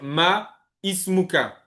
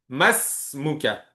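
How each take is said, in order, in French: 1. Les deux mots sont prononcés séparément, sans liaison. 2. Les deux mots s'enchaînent et se prononcent comme un seul mot. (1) "On va pas dire ma ismuka" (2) "on fait la liaison"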